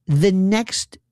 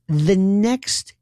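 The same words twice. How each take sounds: The two takes are said the same way.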